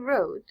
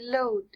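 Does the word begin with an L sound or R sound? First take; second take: R sound; L sound. First: The word begins with an R sound. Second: The word begins with an L sound. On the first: "instead of saying road" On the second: "they'd say load"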